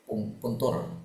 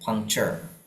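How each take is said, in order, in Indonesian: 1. Akhirannya dibaca dengan bunyi 'tur' biasa. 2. Akhirannya dibaca dengan bunyi 'cher'. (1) "aku aku puntur" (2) "kebanyakan dibaca cher"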